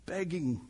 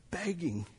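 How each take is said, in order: Both takes have the same delivery.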